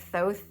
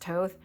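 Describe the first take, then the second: First: The word begins with a soft 'th' sound. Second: The word begins with a plain 't' sound. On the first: This is how the spelling suggests it is said. The speaker calls it wrong. "It looks like Thoth" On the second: This is how the name is actually said. The speaker calls it right. "but it's pronounced Toth"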